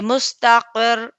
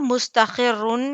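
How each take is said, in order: First: The word ends on a bare consonant. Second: The word ends with an 'un' sound. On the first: The speaker calls it right. "दोनों चीजें साइलेंट हो जाएंगे और यहाँ पर हम रुक जाएंगे" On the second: The speaker calls it wrong. "मुस्तखिरुन या मुस्तखिरू नहीं होगा"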